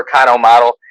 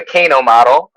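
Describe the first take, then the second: First: Kano said KAH-no, open ah vowel; Japanese Kano. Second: Kano said KAY-no, hard A like "kay"; Midwestern Kano. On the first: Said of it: "it sounds way more Japanese to say Kano". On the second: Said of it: "my Midwestern accent coming out, the hard A". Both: Shown as a demonstration.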